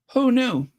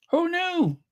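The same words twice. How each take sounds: First: Said in the usual way. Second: Who knew, sung up high; amazed. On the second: Acted. Telling viewers about Meghan, high and amazed. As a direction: marvel at it in a high voice. Marvelling at the story.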